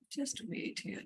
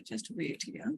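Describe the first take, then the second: First: Whispered aside. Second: Said in the usual way. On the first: Real, not acted. Muttering while typing.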